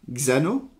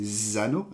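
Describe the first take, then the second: First: « Xano » avec X dit « gz », à la française. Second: « Zano » avec un Z doux, à l'anglaise. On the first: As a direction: dire « Xano » en commençant par « gz ». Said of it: "en français on dit". (« Xano » prononcé gzano) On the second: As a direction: dire « Zano » en commençant par un z. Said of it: "en anglais c'est Zano". (« Zano » prononcé zano) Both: Shown as a demonstration.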